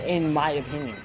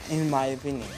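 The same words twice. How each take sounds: The two takes are said the same way.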